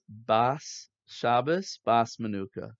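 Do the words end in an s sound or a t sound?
s sound. The words end with an s sound.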